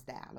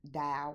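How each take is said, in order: First: "doll" said as "dahl", dropped low; "doll" again, softer. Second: "doll" with a short open a, like "dahl"; her own way of saying doll. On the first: Repeating her pronunciation for viewers, soft "dahl". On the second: Explaining her accent to viewers, "doll" said as "dahl". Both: Shown as a demonstration. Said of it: "that is how I pronounce".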